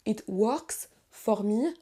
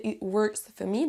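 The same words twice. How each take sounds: First: WORKS with a full 'or', FOR fully pronounced; very slow 'it wORks fOR me', rising on ME; over-literal O in WORKS and FOR; spelled-out wrong pronunciation. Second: WORKS as 'wurks', FOR as 'fuh'; slow model with reduced O in WORKS and FOR; correct reduced pronunciation. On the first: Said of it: "vous entendez déjà que c'est pas". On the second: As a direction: say 'it wurks fuh me'. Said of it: "se prononcent quasiment comme un E". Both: Shown as a demonstration.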